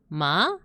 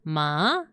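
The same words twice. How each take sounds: First: The pitch rises upward. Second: The pitch dips down then rises. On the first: "a line going up, so your tone goes up" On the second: "it's like a U shape"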